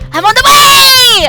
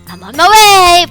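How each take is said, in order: First: Said in a hurried, breathless, energetic voice. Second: Said in a calmer, more relaxed voice. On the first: The person is running. "I was expecting running, so I was doing a running voice" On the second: The person is walking. "Probably more like uh, a walking voice"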